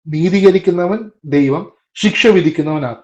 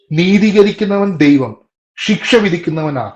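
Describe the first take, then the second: No difference in how they are said.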